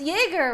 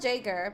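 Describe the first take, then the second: First: The name begins with a Y sound. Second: The name begins with a J sound. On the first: This is the original German way to say it. The speaker calls it right. "It's pronounced like Y" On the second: This is how the parents insist it is said. The speaker calls it wrong. "so I have to call him Jaeger"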